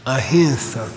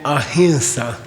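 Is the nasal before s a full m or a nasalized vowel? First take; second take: nasalized vowel; nasalized vowel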